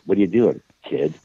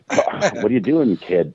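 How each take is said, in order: First: There is a pause right before kid. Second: It runs straight through without a pause before kid.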